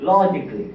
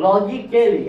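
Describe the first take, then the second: First: Said in the usual way. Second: Slow logically with a full, stressed KAL before -ly; wrong, spelt-out pronunciation. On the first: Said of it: "এটার উচ্চারণ হবে". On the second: Shown as a demonstration. Teacher showing what not to say, slowly mispronouncing logically as lo-gi-KAL-ly. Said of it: "এরকম না".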